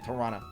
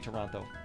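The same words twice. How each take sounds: First: It is said the way residents say it. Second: It is said the way non-residents say it. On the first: This is how people who live there say it. "I don't live in Toronto, so I don't say Toronto" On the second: This is how someone from elsewhere says it. "I say Toronto"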